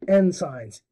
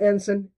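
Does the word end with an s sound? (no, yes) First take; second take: yes; no. First: The word ends with an added s sound. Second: The word ends without an added s sound. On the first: The speaker calls it wrong. "E N and then signs" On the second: The speaker calls it right. "not ensign"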